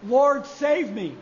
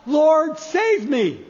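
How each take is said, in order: First: Slow, drawn-out plea; slow cry of faith. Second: Loud cry for help on Lord; sinking man's cry. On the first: Peter calling on Jesus, slow and earnest. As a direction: stretch each word out slowly. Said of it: "cry out to Jesus". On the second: Peter sinking in the storm, crying out loud. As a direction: call Lord out loudly, then save me. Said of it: "he cries out". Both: Acted.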